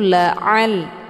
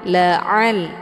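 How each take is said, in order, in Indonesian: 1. Bunyi ain ditekan dari tenggorokan. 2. Bunyi ain ditekan dari tenggorokan.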